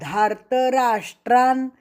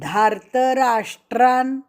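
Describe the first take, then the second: Both takes have the same delivery.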